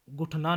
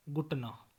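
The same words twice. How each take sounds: First: गुठना as the faulty form; mispronunciation. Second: Said in the usual way. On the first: Shown as a demonstration. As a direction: show गुठना as the form to avoid. (गुठना का अशुद्ध उच्चारण) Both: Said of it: "नहीं".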